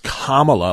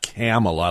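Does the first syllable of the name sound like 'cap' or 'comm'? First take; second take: comm; cap. First: The first syllable sounds like 'comm' in communist. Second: The first syllable sounds like 'cap' in capitalist. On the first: The speaker calls it right. "it's Kamala like communist" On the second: The speaker calls it wrong. "not Kamala like capitalist"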